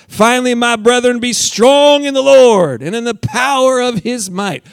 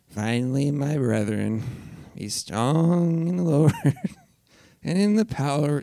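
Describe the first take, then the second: First: It is read with strong passion. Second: It is read flatly, without passion.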